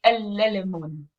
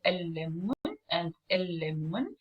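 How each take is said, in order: First: "el lemon" as el-le-lemun, with an extra L syllable; wrong "el lemon" with the L said twice over, el-le-le-mun; article pronounced separately. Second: "el lemon and el lemon" with one held L, article merged into the noun; "el lemon and el lemon" with no separate article syllable; stressed la. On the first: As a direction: sound the article in full before "el lemon". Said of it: "If I wanna hear, um, the definite article too". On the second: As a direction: lean on the doubled L in "el lemon and el lemon". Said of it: "I stress on the la and I don't pronounce it here".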